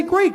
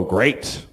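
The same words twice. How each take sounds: First: Higher, bright fake "Great"; forced cheer. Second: Low, flat-out resigned "Great"; weary fake cheer. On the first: Parent faking it to a single friend, a forced bright "Great". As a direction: chirp "Great" to cover the truth. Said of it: "But we say". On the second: Parent answering how's the family, a low resigned "Great". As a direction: say "Great" like a tired parent lying. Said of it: "We go".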